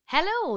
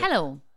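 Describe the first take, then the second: First: The greeting sounds bright and cheerful. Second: The greeting sounds flat and miserable. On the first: The speaker is in a lovely mood. "I'm in a lovely mood today. / there was a different inflection on your hello" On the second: The speaker is in a usual, glum mood. "That's me miserable"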